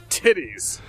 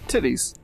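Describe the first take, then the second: First: It is said with enthusiasm. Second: It is said flatly, without enthusiasm.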